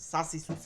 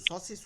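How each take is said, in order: First: The first syllable ends in an open 'aa' vowel. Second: The first syllable ends in a rounded 'o' vowel. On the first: The speaker calls it right. "আকার দিয়ে পড়বেন একদম, সা সি সু চিকন করে।" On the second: The speaker calls it wrong. "স সি সু হয় কেন?"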